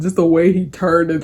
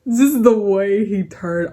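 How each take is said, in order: First: Said in the usual way. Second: Slow words squeezed out between real laughs; laughing through words. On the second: Real, not acted. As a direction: still laughing too hard to talk. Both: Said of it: "I've never laughed so loudly and hard".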